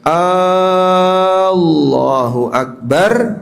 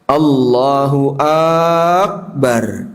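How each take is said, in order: First: The first vowel of Allahu is drawn out long. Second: The first vowel of Akbar is drawn out long. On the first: "A-nya apa? Panjang" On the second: "A-nya di akbar dibaca panjang"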